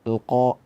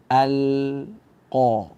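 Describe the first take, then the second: First: The opening vowel merges with the l, sounding thick. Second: The opening vowel is open and thin, l distinct. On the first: The speaker calls it wrong. "a-nya itu uh, digabung dengan lam sehingga menjadi tebal" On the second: The speaker calls it right. "a kita baca infitah, a, kemudian kita hadirkan lam sukun"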